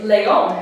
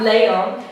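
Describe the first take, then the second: First: Leon as le-ON, slow and emphatic; stress on last syllable. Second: Leon as LE-on, drawn out; misplaced stress on first syllable. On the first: Teacher shows what it is, final-syllable stress in leon. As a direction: lean firmly on the ON of leon. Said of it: "It's on the last syllable". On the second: Teacher shows what it is not, first-syllable stress in leon. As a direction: hit the LE of leon hard and slowly. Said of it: "It's not leon". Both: Shown as a demonstration.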